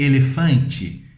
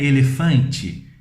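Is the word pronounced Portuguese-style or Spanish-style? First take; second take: Portuguese-style; Portuguese-style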